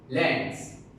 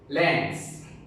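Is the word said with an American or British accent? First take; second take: American; American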